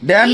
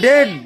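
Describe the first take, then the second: First: The vowel is open, as in cat. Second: The vowel is mid, as in bed. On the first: The speaker calls it wrong. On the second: The speaker calls it right.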